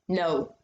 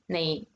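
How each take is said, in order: First: The word ends in a plain 'oh' vowel. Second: The word ends in an 'ay' vowel. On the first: "not no" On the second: "but like now or nay"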